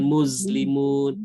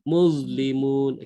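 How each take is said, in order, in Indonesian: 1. Lidah tetap di belakang gigi. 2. Lidah keluar di antara gigi.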